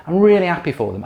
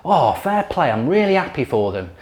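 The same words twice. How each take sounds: First: Mock sincere, pushed harder. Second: Mock sincere. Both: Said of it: "sits there and goes".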